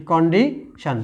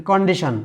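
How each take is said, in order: First: condition slowly broken, KONDI, pause, SHON; a clear gap in condition before শন; split into syllables. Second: Said in the usual way. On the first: Shown as a demonstration. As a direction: hold back the last syllable of condition. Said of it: "তাহলে কন একটা অংশ". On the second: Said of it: "শোন একটা অংশ".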